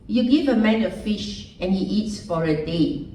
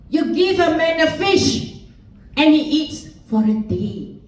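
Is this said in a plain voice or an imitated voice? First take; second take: plain; imitated. First: It is said in the speaker's own plain voice. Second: It is said in a put-on voice imitating someone. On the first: "my dad wouldn't say it this way" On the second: "he would do this. ... this is how he would speak"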